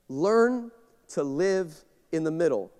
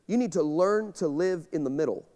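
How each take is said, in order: First: Slow, deliberate restatement; slow emphatic repeat. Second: Said in the usual way. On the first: Shown as a demonstration. Pastor repeating the point to the church, slow and weighty. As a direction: lean on each word, slowly.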